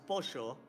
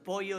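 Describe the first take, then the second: First: The double L is said the Argentine way. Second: The double L is said the general way. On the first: "pollo is pronounced pocho in here" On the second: "not in the Argentinian way"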